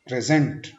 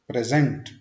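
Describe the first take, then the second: First: The stress is on the second syllable. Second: The same.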